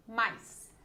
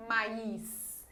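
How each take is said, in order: First: Said in the usual way. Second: "mais" drawn out as two syllables, ma-is; split diphthong. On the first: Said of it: "É uma vogal e uma semivogal". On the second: Shown as a demonstration. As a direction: break "mais" into ma and a stressed is. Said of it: "Ninguém fala mais". ("mais" separado em duas sílabas, ma-is)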